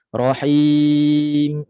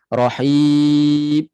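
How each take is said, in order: First: The final m has a short nasal hum. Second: The final m is cut off without nasal hum. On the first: The speaker calls it right. "ada sedikit gunnah him asli, asal. Sekejap je rasa, jangan lebih" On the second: The speaker calls it wrong. "ada juga yang tak ada bunyi. Rahim, dia hilang terus"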